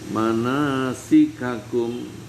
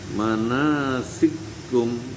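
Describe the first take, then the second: First: The two k syllables are said separately. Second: The two k syllables are merged into one.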